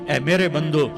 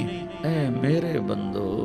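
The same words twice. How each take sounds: First: It is said in a plain, cold tone. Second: It is said in a warm, tender tone. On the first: The speaker calls it wrong. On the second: The speaker calls it right.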